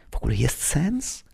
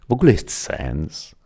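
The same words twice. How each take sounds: First: Hushed, questioning whisper. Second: Said in the usual way. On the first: A narrator's reading. Piotr asking under his breath at Christmas Eve, whispered. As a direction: whisper it softly, rising at the end. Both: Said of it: "szepnął Piotr".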